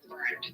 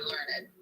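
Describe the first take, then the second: First: It is pronounced the usual modern way. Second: It is pronounced the older traditional way.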